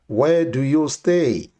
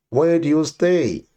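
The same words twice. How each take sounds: The two takes are said the same way.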